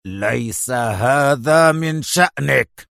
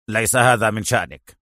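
First: Slow, drawn-out menace; deliberate, threatening slap-down; utterly stern, fierce. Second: Brief, lowered rebuff; severe, unhurried dismissal; stern. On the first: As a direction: draw out every word fiercely. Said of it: "بكل صرامة وشراسة الدنيا". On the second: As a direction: dismiss him firmly. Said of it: "في صرامة". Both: A narrator's reading.

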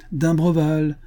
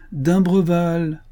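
First: Higher raised call of the name; first call to a sleeping man. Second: Slow, higher, stretched calling of the name; long teasing hail to the cabin; drawn-out call. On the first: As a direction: hail him toward the cabin. Calling to the cabin. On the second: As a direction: sing the name out long to wake him. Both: A narrator's reading.

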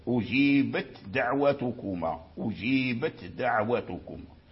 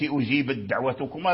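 First: أجيبت with a still, voiceless ت, then a light د in دعوتكما; clear ta, right. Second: أجيبت run into دعوتكما with the ت swallowed into د; wrong, merged. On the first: Teacher giving the correct clear reading of أجيبت دعوتكما. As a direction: hold the ت of أجيبت apart before دعوتكما. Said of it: "حتى يظهر التاء ساكنا". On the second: Teacher showing the wrong merged reading of أجيبت دعوتكما. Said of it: "أدغمت". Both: Shown as a demonstration.

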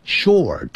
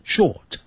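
First: "short" with a clearly curled r; retroflex r. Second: Higher "short" as "shot", no r; missing r. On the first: Teacher explains final r, "short" said with r. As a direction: let the r colour the vowel in "short". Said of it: "那个卷舌音， 呃， 会出现". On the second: Teacher shows the mistake, r-less "short". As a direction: drop the r from "short". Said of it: "而不是short". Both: Shown as a demonstration.

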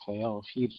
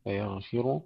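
First: فيغفر stopped on a silent, light ر; فيغفر with the ر silent and thin; light ra with sukun. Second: فيغفر ending in a full, heavy ru; فيغفر with the ر given damma and said full and heavy. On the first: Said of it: "مع ترقيقها". (فيغفرْ بتسكين الراء وترقيقها) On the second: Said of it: "يضمون الراء إلى تفخيمها". (فيغفرُ بضم الراء وتفخيمها) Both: Shown as a demonstration.

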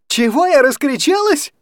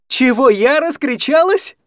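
First: Я hit high and loud with a falling tune; stress on я. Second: Раскричалась rising high and loud in disbelief; stress on раскричалась. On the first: Anya repeating his question, stress falling hard on я. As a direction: punch the word я. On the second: Anya echoing his reproach, stress rising on раскричалась. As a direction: throw his word раскричалась back rising. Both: Acted. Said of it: "орала Аня на всю комнату".

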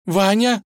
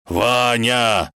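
First: High, hesitant call; uncertain. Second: Raised, drawn-out howl of the name; wailing. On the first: Vasilisa peers down for the fallen Ivan, uncertain. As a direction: ask the name in fragile hope. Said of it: "неуверенно позвала она". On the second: Wolf runs to the edge for his friend, wailing. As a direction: cry out long and plaintively. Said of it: "волк тоже подбежал к краю и заголосил". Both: Acted.

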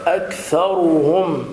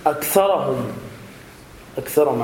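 First: أكثرهم slowly, higher, with full "ru"; clear damma. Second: أكثرهم quickly with a on the ra, "aktharahum"; misreading. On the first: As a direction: bring out the u on ر in أكثرهم. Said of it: "بيان ضمة الراء". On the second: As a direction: imitate the error, losing the u in أكثرهم. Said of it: "يقرأ خطأ ولحنا". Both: Shown as a demonstration.

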